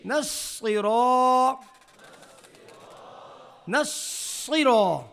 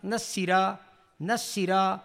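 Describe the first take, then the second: First: Slow نصرا with a full, thick ص; heavy saad. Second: نصیرا quick, thin ص like a س; thin seen. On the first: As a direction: stretch نصرا, mouth full on the ص. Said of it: "اگر اس کو باریک پڑھا". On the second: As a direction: say نصیرا lightly with a thin س sound. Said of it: "اس کو باریک پڑھا". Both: Shown as a demonstration.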